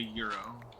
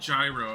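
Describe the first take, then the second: First: The word begins with a 'y' sound. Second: The word begins with a 'j' sound. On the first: This is the correction toward the Greek way. The speaker calls it right. "I was like" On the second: This is the common, anglicized way of saying it. The speaker calls it wrong. "She was all like"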